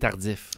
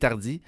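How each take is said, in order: First: The name ends with an audible f sound. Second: The name ends without an f sound. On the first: This is how the name is said in Montreal. "À Montréal, c'est tardif" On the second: This is how the name is said around Quebec City. "Québec et plus S, c'est tardi"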